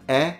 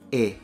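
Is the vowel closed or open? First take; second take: open; closed. First: The vowel is pronounced open. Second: The vowel is pronounced closed.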